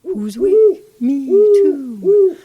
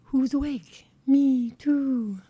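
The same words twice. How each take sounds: First: Much higher and much louder hooting owl call. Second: A first, lightly voiced owl hoot, a bit higher; hint of a great horned owl calling; owl hoot imitation. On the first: Retold or imitated. Host showing listeners the owl's call, loud high hoot. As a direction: belt it out like a great horned owl. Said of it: "With a deep hoot". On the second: Host showing listeners the owl's call, lightly voiced hoot. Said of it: "they say".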